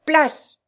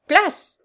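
First: High, loud, falling order; shouted command. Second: Higher, loud, rising shout; repeated shouted command. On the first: Abductor orders the figure aside, shouting. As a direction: call out to clear the way. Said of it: "cria-t-il en marchant toujours". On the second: Abductor draws his sword and repeats, shouting. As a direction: shout it higher, pitch lifted. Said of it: "cria-t-il". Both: A narrator's reading.

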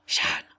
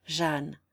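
First: Hissed in a whisper; low voice. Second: Said in the usual way. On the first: Acted. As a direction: warn her under his breath. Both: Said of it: "dit Marsillat à voix basse".

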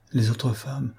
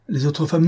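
First: Said in the usual way. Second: Higher and louder on "les autres femmes"; emphatic repeat. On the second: A narrator's reading. Don Luis confessing to Mazerou, bursting out the repeat. Repeats phrase, rising in emotion.

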